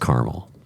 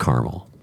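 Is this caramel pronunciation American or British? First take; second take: American; American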